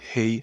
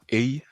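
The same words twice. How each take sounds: First: The word starts with an audible h sound. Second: The word starts without an h sound. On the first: The speaker calls it right. "Parce que le H en anglais a une prononciation" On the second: The speaker calls it wrong. "C'est pas hey"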